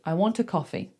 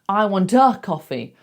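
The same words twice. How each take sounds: First: The word 'a' is a tiny relaxed schwa. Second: The word 'a' has a full, clear vowel. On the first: The speaker calls it right. "such a small, relaxed sound and it's unstressed" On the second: The speaker calls it wrong. "We don't say"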